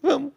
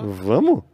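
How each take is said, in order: First: Maurício's reply. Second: Surprised question. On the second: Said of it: "Eu fiz assim". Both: Retold or imitated.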